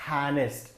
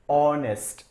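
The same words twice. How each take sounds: First: The word begins with an audible H sound. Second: The word begins directly with a vowel sound. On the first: The speaker calls it wrong. "It is not honest" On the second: The speaker calls it right. "It is honest. ... So H is silent"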